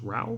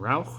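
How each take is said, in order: First: The final consonant sound is silent. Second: The final consonant sound is pronounced. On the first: The speaker calls it right. "it sounds like the end of it is silent, so it's just Rau" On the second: The speaker calls it wrong. "so I would have imagined Rauch"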